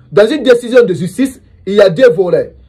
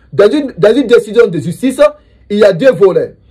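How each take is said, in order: The two takes are said the same way.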